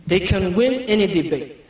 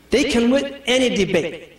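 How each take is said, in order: First: Said in the usual way. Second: They can win any debate with a laugh. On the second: Shown as a demonstration. Preacher teasing the sisters, laughing. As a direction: joke it.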